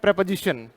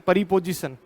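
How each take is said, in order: First: It starts with a tight 'pre' cluster. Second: An extra vowel splits it into 'pari'. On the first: The speaker calls it right. "इसे बोलते हैं प्रेपोजिशन" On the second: The speaker calls it wrong. "ना कि परिपोजिशन"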